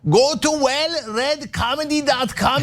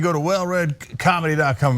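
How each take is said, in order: First: It is said in his dad's Turkish accent. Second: It is said in his own plain accent.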